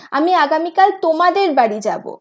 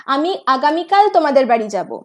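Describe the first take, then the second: First: Emphasis moved onto তোমাদের; stress on তোমাদের. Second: Emphasis placed on আগামীকাল; stress on আগামীকাল. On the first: Teacher demonstrating sentence stress to students, stress on তোমাদের. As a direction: lean on the word তোমাদের, marking whose house. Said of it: "তোমাদের এক্ষেত্রে কিন্তু জোর". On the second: Teacher demonstrating sentence stress to students, stress on আগামীকাল. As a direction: lean on the word আগামীকাল, marking the day. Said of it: "আগামীকালটার ওপর stress দিচ্ছি". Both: Shown as a demonstration.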